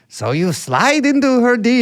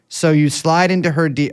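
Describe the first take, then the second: First: It is said in an imitated, put-on voice. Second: It is read in the speaker's ordinary voice.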